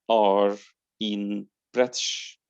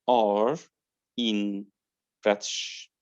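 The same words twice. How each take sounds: Both takes have the same delivery.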